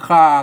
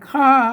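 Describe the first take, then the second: First: The word carries a low tone. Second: The word carries the special northern falling tone. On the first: This is the Tai Lue or Yong pronunciation. "ถ้าเป็นอันไตลื้อหรือยองเพิ่นคา มันเสียงเอก" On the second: This is the Chiang Mai Tai Yuan pronunciation. "อันข้าเนี่ยเนี่ยเนี่ยเชียงใหม่แต่ยวน"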